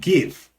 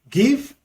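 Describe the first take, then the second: Both takes have the same delivery.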